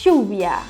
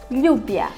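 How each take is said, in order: First: The ll sounds like an 'sh' sound. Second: The ll sounds like a 'ly' sound. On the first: "na Argentina, é quase como se fosse um C H" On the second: "é como se tivesse um L H"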